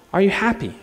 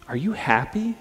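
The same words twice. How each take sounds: First: Higher, lightly acted female crime fighter; crime fighter's question. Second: Said in the usual way. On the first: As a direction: ask it higher, as the heroine. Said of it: "But she asks him". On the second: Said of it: "she asks the villain".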